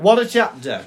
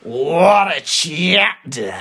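First: It is said in a plain, calm way. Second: It is said with strong venom and emotion.

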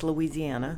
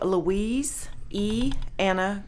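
First: It is said fast, run together. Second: It is said slowly, as separate words.

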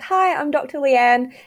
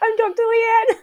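First: It is said in a serious, formal tone. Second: It is said in a playful, giddy tone.

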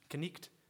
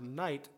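First: It is said with an old pronunciation, 'knicht'. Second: It is said with the ordinary modern pronunciation.

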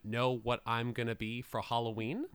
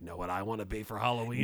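First: It is said in a normal reading voice. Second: It is said in a Freddy Krueger voice.

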